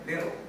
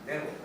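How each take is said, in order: First: The middle consonant is a soft d. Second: The same.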